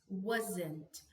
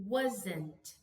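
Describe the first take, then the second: Both takes have the same delivery.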